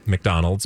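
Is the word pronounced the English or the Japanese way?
English. It is said with a plain English pronunciation.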